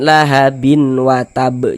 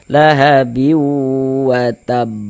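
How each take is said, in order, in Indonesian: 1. Bunyi n yang jelas terdengar sebelum w. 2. Bunyi n menyatu menjadi dengung sengau yang ditahan. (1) "jangan dibaca lahabin" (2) "kita tahan sejenak suara kita, kita gunnahkan"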